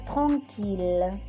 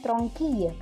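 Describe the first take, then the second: First: The ending is pronounced with an l sound. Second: The ending is pronounced with a y sound. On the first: The speaker calls it right. "Tapi ini pengecualian. Dia dibaca tranquille" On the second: The speaker calls it wrong. "Harusnya tranquille kan"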